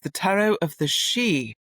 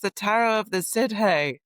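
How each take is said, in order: First: The last word sounds like one syllable, 'she'. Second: The last word is sounded out as spelled, 'sid-hee'. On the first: The speaker knows the name from the book. The speaker calls it right. "Of course" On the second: The speaker has not read the book. The speaker calls it wrong. "You can tell when people haven't read the book"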